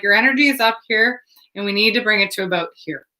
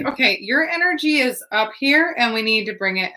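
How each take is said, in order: First: Quick, level retold instruction, easing down in pitch; imitating a composed, matter-of-fact steadying talk; demonstrated calming talk. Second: Retold calming talk, starting high and coming down; imitating a steadying talk to a frantic stranger; talking someone down. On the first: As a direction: talk someone down briskly and evenly. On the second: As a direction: pitch up on "up here", then settle. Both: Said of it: "literally saying it like this".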